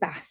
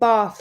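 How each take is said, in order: First: The vowel is short, as in cat. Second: The vowel is long, as in car. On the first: It is the Northern English pronunciation. "they say Bath like cat" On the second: It is the Southern English pronunciation. "I'm saying Bath like car"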